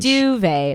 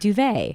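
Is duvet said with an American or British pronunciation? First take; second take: British; American. First: It is said with a British pronunciation. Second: It is said with an American pronunciation. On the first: This is how the other person says it. "You have duvet" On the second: This is how the speaker says it. "and I have duvet"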